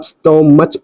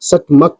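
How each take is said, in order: First: The word ends with a ch sound. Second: The word ends with a k sound. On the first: The speaker calls it wrong. "वो उसकी wrong pronunciation होती है" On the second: The speaker calls it right. "Last में एक का का sound निकालता है"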